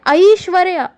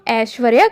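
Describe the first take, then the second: First: The first vowel glides from 'a' to 'ee'. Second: The first vowel is a plain, unglided vowel. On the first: The speaker calls it right. "वह वास्तव में है ऐश्वर्या" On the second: The speaker calls it wrong. "जिसे हम ऐश्वर्या कहते हैं"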